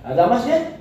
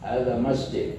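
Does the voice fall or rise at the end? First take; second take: rise; fall. First: The voice rises at the end. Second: The voice falls at the end. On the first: It asks whether this is a mosque. "Kalau tanya" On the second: It states that this is a mosque. "Tanggimnya kan hadza masjid"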